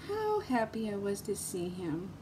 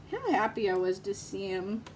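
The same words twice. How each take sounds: First: A quiet fond repeat, almost under the breath; soft echo. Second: Said in the usual way. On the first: Real, not acted. Telling viewers about her friend, softly repeating herself.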